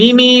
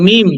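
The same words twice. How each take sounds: First: "মিমি" with two syllables, ending in a long ee; the mistaken two-syllable "মিমি"; wrong pronunciation. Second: "মিম" as one syllable, meem; correct pronunciation. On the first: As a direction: say "মিমি" as the common mistake, mee-mee. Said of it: "কিন্তু মিমি না, মিলিও না". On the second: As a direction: say "মিম" closed on the m, no final vowel. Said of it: "এটা হচ্ছে মিম". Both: Shown as a demonstration.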